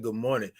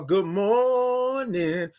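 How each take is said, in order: First: Said in the usual way. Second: "good morning" stretched very slowly, every vowel held; long drawn-out good morning. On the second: Retold or imitated. Host greeting a viewer, "good morning" drawn out slowly. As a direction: savor each sound of "good morning". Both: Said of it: "all them O's and R's and N's".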